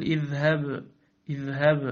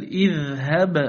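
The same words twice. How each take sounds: First: "اذهب" with slack, v-like final b; missing qalqala. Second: "اذهب" with firm closed b and bouncing echo; clear qalqala. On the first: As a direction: let the b of "اذهب" die without bounce. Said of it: "ولا تقل". ("اذهب" بباء رخوة دون قلقلة) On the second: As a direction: bounce the final b of "اذهب" hard. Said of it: "بل". (قلقلة باء "اذهب") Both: Shown as a demonstration.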